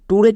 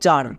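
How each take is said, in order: First: It begins with a t sound, like 'tooray'. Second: It begins with a ch sound, like 'cher'. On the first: The speaker calls it wrong. "টুরে কিন্তু না, অনেকেই ভুল করে টুরে উচ্চারণ করছো" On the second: The speaker calls it right. "But এর উচ্চারণটা হবে চার"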